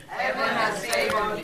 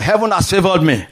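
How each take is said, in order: First: Heaven has favored me said much softer, under the breath; soft echo. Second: Said in the usual way. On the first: Shown as a demonstration. Congregation member echoing the preacher, a soft murmured Heaven has favored me. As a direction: repeat Heaven has favored me quietly to yourself. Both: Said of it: "Say to yourself".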